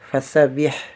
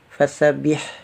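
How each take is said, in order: No difference in how they are said.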